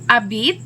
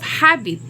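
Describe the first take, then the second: First: The word is said without the H sound. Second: The word is said with the H sound. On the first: The speaker calls it wrong. "the speaker who cannot produce letter H says" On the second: The speaker calls it right. "in place of habit"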